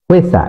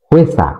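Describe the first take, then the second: Both takes have the same delivery.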